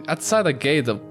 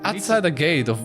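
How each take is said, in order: Both takes have the same delivery.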